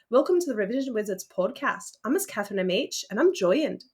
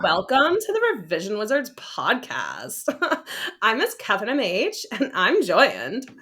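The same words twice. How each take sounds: First: It is said in a British accent. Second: It is said in a Valley Girl accent.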